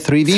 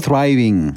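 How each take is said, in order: First: The first syllable sounds like 'three'. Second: The first syllable sounds like 'thrive'. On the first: The speaker calls it wrong. "Nie thriving" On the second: The speaker calls it right. "tylko thriving"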